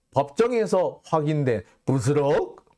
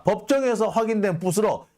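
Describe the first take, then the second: First: 법정에서 raised in mocking disbelief, rising end; 법정에서 with a scoffing rising question; incredulous quoting. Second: 법정에서 pitched high like an announcing reporter, falling end; 법정에서 stated high and falling, mock news tone; mock reporter read. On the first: Shown as a demonstration. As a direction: read the headline with a sneering lift. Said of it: "법정에서 확인이 됐대요". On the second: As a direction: declare it like a smug headline. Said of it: "부시럭거리는 녹음이 됐다".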